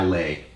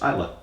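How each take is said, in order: First: The name ends with an 'ay' sound. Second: The name ends with an 'ah' sound. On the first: The speaker calls it wrong. "they mispronounce it um, frequently. It's not Islay" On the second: The speaker calls it right. "it's Isla"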